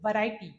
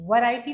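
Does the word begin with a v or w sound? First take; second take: v; w. First: It starts with a teeth-on-lip v sound. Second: It starts with a rounded-lip w sound. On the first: The speaker calls it right. "It's वैरायटी" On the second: The speaker calls it wrong. "वैरायटी नहीं होता"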